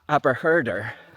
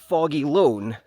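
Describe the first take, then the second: First: The name sounds like 'Aberherder', as spelled. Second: The name sounds like 'Foggy Loan'. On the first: This is how outsiders would guess it. The speaker calls it wrong. "If you said Aberherder, then you'd be wrong" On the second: This is how the locals say it. The speaker calls it right. "that's how the locals pronounce it"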